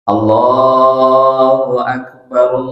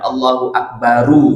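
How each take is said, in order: First: The final r is cut off with no vowel. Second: The final r is followed by a u-vowel. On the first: The speaker calls it right. "rohnya mati" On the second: The speaker calls it wrong. "bukan Allahu Akbaru"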